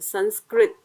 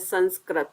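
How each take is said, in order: First: The last syllable is said with 'ri'. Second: The last syllable is not said with 'ri'. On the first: The speaker calls it right. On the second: The speaker calls it wrong.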